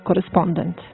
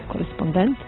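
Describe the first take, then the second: First: The stress falls on the second-to-last syllable. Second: The stress falls on the last syllable. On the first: The speaker calls it right. "kratkosilazni se povlači na prethodni slog i prelazi u kratko uzlazni" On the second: The speaker calls it wrong. "Ne izgovara se, kako smo navikli"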